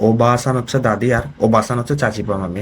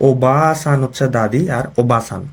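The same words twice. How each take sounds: First: Said in the usual way. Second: Slow, spelled-out ওবাসান (long 'baa' for grandmother) against ওবাসান (short 'ba' for aunt); careful pronunciation. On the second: Shown as a demonstration. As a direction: stretch the vowel in the first ওবাসান and keep it short in the second. (ধীরে, স্পষ্ট উচ্চারণে ওবাসান বলা) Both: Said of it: "উচ্চারণটা দেখেন".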